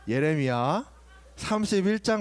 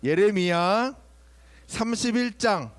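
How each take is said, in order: First: The voice is calm and quiet. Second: The voice is loud and raised. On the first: The speaker calls it right. "이렇게 차분하 이렇게" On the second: The speaker calls it wrong. "내가 자꾸 목소리가 커지잖아"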